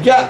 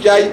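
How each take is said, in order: First: The vowel ends without a y-glide. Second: The vowel ends with a y-glide. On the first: The speaker calls it right. "תגיד ג'ה" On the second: The speaker calls it wrong. "אל תגיד ג'י"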